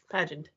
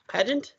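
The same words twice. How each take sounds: First: "Pageant." lower and softer, falling at the end; "Pageant" as a quiet, settled statement; settled falling tune. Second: "Pageant?" with a rising, questioning end; "Pageant" tried out as a question; questioning tune. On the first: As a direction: answer with "Pageant", pitch dropping to a close. Settles the name after querying it. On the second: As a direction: say "Pageant" as a query, pitch lifting at the end. Trying the name two ways. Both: Real, not acted.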